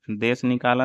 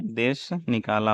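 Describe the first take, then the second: First: देश निकाला with देश as "des". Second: Said in the usual way. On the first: Shown as a demonstration. Teacher showing the mistake, देश as "des". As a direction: use a plain s at the end of देश. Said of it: "नहीं". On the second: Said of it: "होता है".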